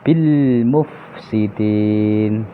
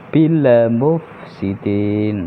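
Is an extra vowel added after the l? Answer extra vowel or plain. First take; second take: plain; extra vowel. First: The l closes cleanly with no added vowel. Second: An extra vowel is added after the l. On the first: The speaker calls it right. "Yang lebih tepat" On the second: The speaker calls it wrong. "bukan ... ada le-nya itu kurang tepat"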